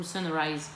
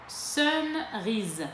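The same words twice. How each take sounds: First: Sunrise read slowly with "rise" like French "riz"; French-style pronunciation. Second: Sunrise corrected to "rise" with an "eye" vowel; English-style pronunciation. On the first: Vlogger trying the shade name, Sunrise ending like "riz". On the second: Vlogger correcting the shade name, Sunrise rhyming with "eyes". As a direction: say Sunrise the English way, French-accented. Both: Real, not acted. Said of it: "mon accent pourri".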